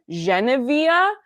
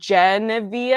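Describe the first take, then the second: First: The name is said with French consonants. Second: The name is said with English consonants. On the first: This is the owner's chosen pronunciation. The speaker calls it right. "I chose the name, so I choose the pronunciation" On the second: This is how listeners mishear the name. The speaker calls it wrong. "they think I'm saying Genevieve"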